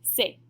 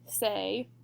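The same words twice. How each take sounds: First: The vowel is clipped and very short. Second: The vowel is drawn out and long. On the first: The speaker calls it right. "it's going to be very short" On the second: The speaker calls it wrong. "instead of it being so long"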